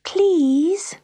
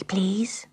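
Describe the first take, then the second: First: PLEASE high and breath-filled, rising; begging. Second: PLEASE in a soft whisper, rising. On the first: Pat begging the silent grand piano, PLEASE pleaded high. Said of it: "begged Pat". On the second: Pat to the grand piano, PLEASE whispered softly. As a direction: whisper PLEASE as a timid request. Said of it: "she whispered to the grand piano". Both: A narrator's reading.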